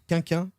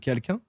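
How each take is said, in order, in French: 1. Les consonnes sont omises, ce qui donne quinquin. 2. Chaque consonne est prononcée, ce qui donne quelqu'un. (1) "je dise quinquin au lieu de quelqu'un" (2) "au lieu de quelqu'un"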